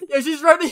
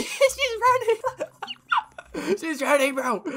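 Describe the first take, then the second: First: Said in the usual way. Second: Squealing high laughter through the words; real high-pitched laughing fit. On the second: Real, not acted. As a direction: crack up as she runs away. Laughing as player flees.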